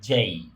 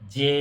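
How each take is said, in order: First: The letter is said as 'jay' with a glide. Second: The letter is said as a short 'jeh'. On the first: The speaker calls it right. "এটার উচ্চারণ হবে যেই" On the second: The speaker calls it wrong. "এটা আসলেই যে না"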